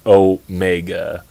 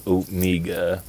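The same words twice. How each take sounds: First: Said in the usual way. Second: Omega with "mee" in the middle; imitated pronunciation. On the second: Host mimicking how the character says Omega, oh-MEE-ga. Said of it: "I don't know why she says".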